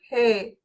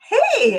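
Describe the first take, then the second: First: It is said flatly, without excitement. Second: It is said with excited energy.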